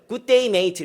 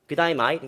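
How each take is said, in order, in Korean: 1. 호주식이 아닌 평범한 억양으로 말해요. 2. 호주식 억양으로 말해요. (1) "걔네들은 good day mate 이렇게 인사하지 않습니다" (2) "good day mate 이렇게 인사해요"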